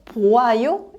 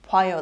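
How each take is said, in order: First: The two vowels are said as separate syllables. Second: The two vowels merge into one gliding syllable.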